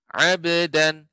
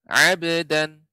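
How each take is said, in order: Both takes have the same delivery.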